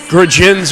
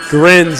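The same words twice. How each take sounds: First: The J sound in the name is pronounced. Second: The J sound in the name is silent. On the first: The speaker calls it wrong. "I would have been saying like" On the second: The speaker calls it right. "The the J in the name is silent"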